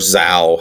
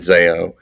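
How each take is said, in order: First: The name sounds like 'zow'. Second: The name sounds like 'zay-oh'. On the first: This may be the band's own pronunciation. "if it turns out it's actually pronounced Zao" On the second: This is how the speaker has always said it. "I've been saying Zayo since I was fourteen"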